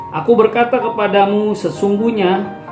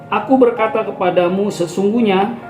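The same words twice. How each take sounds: Both takes have the same delivery.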